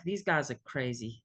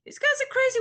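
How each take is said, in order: First: Mock thought, dropped low and quieter; low wary aside. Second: High falsetto, louder mock disbelief; mock bewilderment. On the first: Newcomer recalling first thoughts of the group, low mock aside. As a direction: say it low, as a privately judging newcomer. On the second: Newcomer recalling first thoughts of the group, high mock bewilderment. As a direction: leap way up in pitch, comically baffled. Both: Acting out early baffled thoughts.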